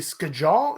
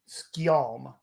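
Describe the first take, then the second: First: The J is pronounced like a hard J sound. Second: The J is pronounced like a Y sound. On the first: "it could be skajal" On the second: "like with the J as a y sound"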